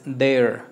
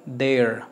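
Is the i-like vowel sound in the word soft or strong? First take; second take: soft; soft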